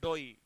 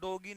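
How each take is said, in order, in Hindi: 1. शब्द के बीच में कोई g ध्वनि सुनाई नहीं देती। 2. शब्द के बीच में कठोर g की ध्वनि सुनाई देती है। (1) "इसे बोलेंगे डोई" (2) "इसे डोगी या डोगी नहीं बोलेंगे"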